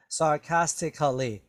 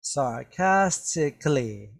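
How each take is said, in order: First: "sarcastically" with a full extra vowel, tic-kuh-lee; over-pronounced k. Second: "Sarcastically" slowly, k running straight into "lee"; very soft k. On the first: Teacher showing the crazy way not to say "sarcastically", a heavy "kuh" before "lee". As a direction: sound the k in "sarcastically" as a separate "kuh". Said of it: "I don't want you to say". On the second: Teacher modelling "Sarcastically" for learners, very soft k with no "kuh". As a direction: say "Sarcastically" slowly with a barely sounded k, tick-lee. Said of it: "The k is very, very soft".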